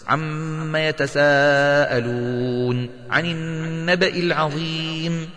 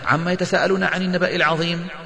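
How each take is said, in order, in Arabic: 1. تُمَدّ الميم المغنّاة وحروف المد طويلًا. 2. تُقصَر الميم المغنّاة وحروف المد. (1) "تغن الميم وتمد المد الواجب المتصل ... لابد أن يكون هكذا" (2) "فلا ينبغي عليك أن تقرأ هكذا ... هذا هذر"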